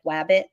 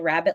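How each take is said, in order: First: The word begins with a w sound. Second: The word begins with an r sound.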